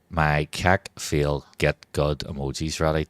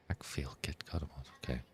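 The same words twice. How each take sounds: First: Said in the usual way. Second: Breathy secret whisper of Keck Feel Get Good emoji. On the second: Shown as a demonstration. Streamer whispers the emoji name to chat, softly. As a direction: hush it like a secret.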